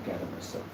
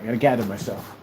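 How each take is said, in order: First: Unvoiced whisper of gather myself. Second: Said in the usual way. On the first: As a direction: whisper it to yourself. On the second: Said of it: "I just gotta take a moment".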